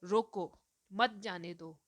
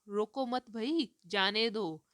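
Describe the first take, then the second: First: "रोको" falling, break, then "मत जाने दो"; pause after रोको. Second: "रोको मत भई" rising, break, "जाने दो" falling; pause after मत. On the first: Teacher showing how one comma changes meaning, pause after रोको. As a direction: stop after रोको, run मत जाने दो together. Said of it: "खाली एक कॉमा से जो है सेंटेंस का पूरा meaning change". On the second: Teacher making the meaning clear to a listener, pause after मत भई. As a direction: break the line after मत भई, then release जाने दो. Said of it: "उससे सुनने वाले को पता चल रहा है कि मैं कह रही हूँ". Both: Shown as a demonstration.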